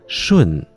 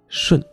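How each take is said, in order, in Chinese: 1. 音高完全降到底。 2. 音高只降了一部分。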